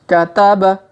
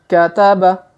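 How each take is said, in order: No difference in how they are said.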